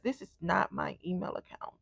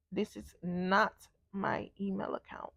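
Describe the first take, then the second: First: Said in the usual way. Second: "not" drawn out, slow and hushed; soft, slow word-by-word "not my email account"; slow emphatic repeat. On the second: Retold or imitated. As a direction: let "not" sink in, slowly and softly.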